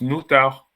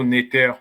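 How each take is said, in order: First: The first vowel sounds like 'ou'. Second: The first vowel sounds like 'e'. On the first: This is the reconstructed real pronunciation. The speaker calls it right. "je vais vous dire que ça se prononce noutar" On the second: This is the conventional scholarly reading. The speaker calls it wrong. "qu'on va dire néter, ça, c'est une convention"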